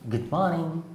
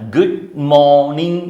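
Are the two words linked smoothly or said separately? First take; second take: linked; separate. First: The two words run together as connected speech. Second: The two words are said separately and distinctly. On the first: The speaker calls it right. "ഇംഗ്ലീഷിൽ പറയുമ്പം അത് connect ആയിട്ടാണ് സംസാരിക്കുന്നത്" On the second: The speaker calls it wrong. "നമ്മളിങ്ങനെ എടുത്തു പറയില്ല"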